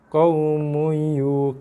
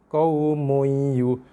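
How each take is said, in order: No difference in how they are said.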